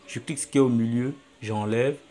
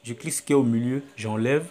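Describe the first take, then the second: No difference in how they are said.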